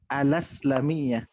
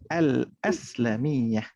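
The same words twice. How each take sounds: First: The article runs straight into the name. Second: The article is kept apart from the name. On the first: The speaker calls it wrong. "kalau tak ada sengkang ni nanti awak akan baca" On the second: The speaker calls it right. "nak baca yang betul kena baca"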